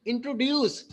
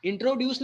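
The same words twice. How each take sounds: First: "introduce" with light intro, weighted ड्यूस; stress on ड्यूस. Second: "introduce" the wrong way, full intro; stress on intro. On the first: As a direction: land firmly on ड्यूस in "introduce". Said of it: "ड्यूस पे आपको emphasise करना है". ("Introduce" में ड्यूस पर ज़ोर) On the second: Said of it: "introduce नहीं है ये". ("इंट्रोड्यूस" में इंट्रो पर गलत ज़ोर) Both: Shown as a demonstration.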